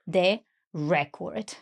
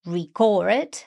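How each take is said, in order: First: Slow "the record", stressed RE-cord; noun stress. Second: "record" as a verb, ree-CORD; verb stress. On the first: Learner filling the noun blank for the teacher, slow "record" stressed on RE. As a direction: stress the first syllable of "record", taking it slowly. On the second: Learner filling the verb blank for the teacher, "record" stressed on CORD. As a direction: stress the second syllable of "record", carefully separated. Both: Shown as a demonstration. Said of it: "we need to verb the noun".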